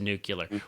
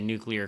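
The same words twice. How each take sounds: First: It is said as new-kyuh-ler. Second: It is said as new-klee-er. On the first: "then it changes to nuclear" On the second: "say nuclear correctly"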